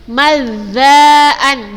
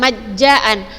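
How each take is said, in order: First: The middle consonant is made at the tongue tip. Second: The middle consonant sounds like a j. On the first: The speaker calls it right. "walakin mazzaan di ujung lidah zanya" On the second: The speaker calls it wrong. "bukan majjaan"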